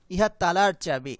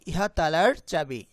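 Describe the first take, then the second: No difference in how they are said.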